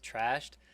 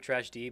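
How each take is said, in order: First: The name is said as one syllable. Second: The name is said as two syllables. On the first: The speaker calls it right. "It's Trashed" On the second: The speaker calls it wrong. "I guess I've been pronouncing it wrong"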